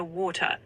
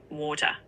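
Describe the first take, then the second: First: Southern English "water" with a clear T; "water" in a standard British accent. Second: New Zealand "water" with a rounded vowel; "water" in a New Zealand accent. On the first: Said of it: "In a British accent". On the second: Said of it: "In a New Zealand accent". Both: Shown as a demonstration.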